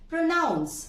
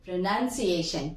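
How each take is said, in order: First: Raised pitch on pronounce, "ow" in the last syllable; verb with "noun". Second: Pronunciation slowly, as pro-NUN-see-ay-shun, lower; short "uh" in the second syllable of pronunciation; noun with "nun". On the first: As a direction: pronounce as pro-NOUNCE, higher. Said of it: "Mind the difference". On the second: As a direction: draw out pronunciation with "nun" in the middle. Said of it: "नन हो जाता है". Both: Shown as a demonstration.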